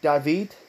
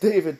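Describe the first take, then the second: First: The name is said with Spanish pronunciation. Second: The name is said with English pronunciation. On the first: "they pronounce it David. You know, in Spanish" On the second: "It keeps calling him David"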